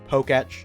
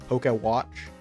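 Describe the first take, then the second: First: The name is said with no w sound. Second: The name is said with a w sound. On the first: The speaker calls it right. "it is Poketch" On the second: The speaker calls it wrong. "not Pokewatch"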